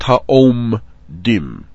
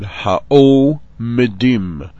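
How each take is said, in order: First: The M and D join with no vowel. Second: A short vowel comes between M and D. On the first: The speaker calls it wrong. "not ha'om dim" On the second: The speaker calls it right. "you had ha'o medim"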